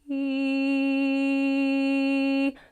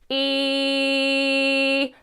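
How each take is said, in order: First: The voice is thin, light and soft. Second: The voice is full, heavy and speech-like. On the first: "Thin fold, the lighter, softer" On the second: "thick fold, that really speech quality kind of, you know, E sound where you've got that connection is using a thicker mass"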